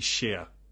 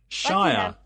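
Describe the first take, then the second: First: The word rhymes with here. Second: The word rhymes with fire. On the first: The speaker calls it right. "We say sheer" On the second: The speaker calls it wrong. "We don't say shire like that"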